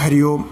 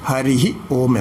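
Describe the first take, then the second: First: It is said without a breathy 'hi' after 'hari'. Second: It is said with a breathy 'hi' after 'hari'. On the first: The speaker calls it wrong. "ഇപ്പോൾ വളരെ എല്ലാവരും ഹരി ഓം എന്നങ്ങനെ പറയാറുണ്ട്" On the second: The speaker calls it right. "ശരിക്ക് ഉച്ചരിക്കേണ്ട രീതി"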